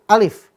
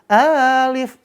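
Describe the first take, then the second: First: The vowel in the name is kept short. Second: The vowel in the name is drawn out long. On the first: The speaker calls it right. "Bunyinya alif. ... nggak dibaca panjang" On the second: The speaker calls it wrong.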